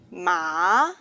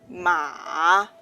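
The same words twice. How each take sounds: First: The pitch rises from middle to high. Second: The pitch starts low and then rises. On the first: "is a rising tone" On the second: "is a low rising tone"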